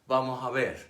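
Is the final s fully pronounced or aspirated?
aspirated. The final s is aspirated or dropped.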